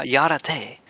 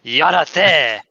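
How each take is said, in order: First: "Yarate" as ya-ra-TAY, with a y at the start; unsure, clumsy stab at "Yarate"; failed French attempt. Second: Louder, punchy Japanese-sounding "Yarate"; hammed-up Japanese accent, forceful; mock Japanese accent. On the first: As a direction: botch the French, saying "Yarate" with an English-style r. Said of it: "I can't do it". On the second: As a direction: bark "Yarate" like exaggerated Japanese, with a tapped r. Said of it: "I make it sound like I'm Japanese". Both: Shown as a demonstration.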